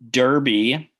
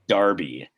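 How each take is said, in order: First: The first vowel sounds like 'er'. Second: The first vowel sounds like 'ar'. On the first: The speaker calls it wrong. "all of our British listeners will like want to punch me in the face" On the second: The speaker calls it right. "the correct pronunciation is Darby"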